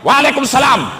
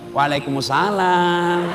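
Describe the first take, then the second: First: It is said in a plain, firm voice. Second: It is said in a soft, lilting, wavy voice.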